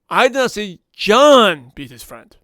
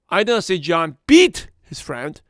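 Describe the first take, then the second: First: The word John carries the main stress. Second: The word beat carries the main stress. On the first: A different person beat the friend. "That was David that be his friend" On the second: He did something else to the friend. "He pushed him around"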